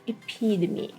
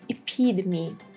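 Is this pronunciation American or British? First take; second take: American; American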